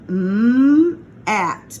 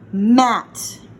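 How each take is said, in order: First: The sounds are said slowly and separately. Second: The sounds are blended quickly into one word. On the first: "we have m at" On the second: "you got to say it fast"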